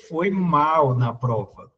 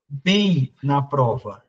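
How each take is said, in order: First: Said in the usual way. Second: "bem" drawn out slowly and leaned on; slow and deliberate, landing on "bem"; stress on bem. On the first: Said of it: "eu poderia dizer". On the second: Shown as a demonstration. Teacher to class, slowly stressing "bem" in the example. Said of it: "Então, se é bem".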